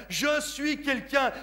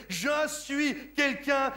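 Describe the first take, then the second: No difference in how they are said.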